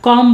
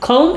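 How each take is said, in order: First: The vowel is a short, plain o. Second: The vowel glides like a long 'oh'. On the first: The speaker calls it wrong. "উচ্চারণটা আমরা কম বলবো না" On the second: The speaker calls it right. "আমরা বলবো খৌম"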